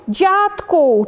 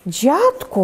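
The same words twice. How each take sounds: First: High, falling call to grandpa; lightly voiced scarecrow creature calling; monster calling out. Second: Mildly worried grandma calling; understated anxious call. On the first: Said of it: "czupiradło woła". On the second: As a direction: call to grandpa with a touch of worry. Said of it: "woła zatroskana". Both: A narrator's reading.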